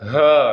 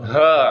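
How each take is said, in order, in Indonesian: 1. Bunyi h dalam, ditekan ke bawah menuju dada. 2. Bunyi h dalam, ditekan ke bawah menuju dada.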